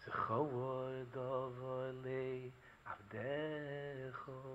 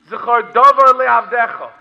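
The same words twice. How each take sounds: First: Soft, low, very slow chant; sung, quiet, drawn-out Hebrew lament; haunting singing. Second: Loud spoken Hebrew verse; preacher's emphatic citation; forceful declaiming. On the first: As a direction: sing it hauntingly, drawing out every syllable. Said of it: "in a haunting voice". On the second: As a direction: proclaim the verse, spoken instead of sung. Sung verse now declaimed. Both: Retold or imitated.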